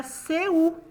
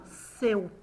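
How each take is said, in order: First: SEU said slowly as SE-U; drawn-out, wrongly separated SE-U; SEU split in two. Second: SEU slowly glided in one sound; the correct joined SEU, no break before U; SEU as one syllable. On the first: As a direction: break "seu" into two syllables, se and u. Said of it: "se eu separasse". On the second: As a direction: say "seu" unbroken, one mouth movement. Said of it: "eu falo seu". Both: Shown as a demonstration.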